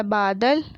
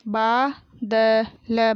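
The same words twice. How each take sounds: First: Said in the usual way. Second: बादल drawn out as baa, da, la; very slow बादल, each letter held apart; spelled out. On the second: Shown as a demonstration. Teacher sounding out बादल for pupils, syllable by syllable. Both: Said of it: "मैंने इस तरीके से पढ़ा".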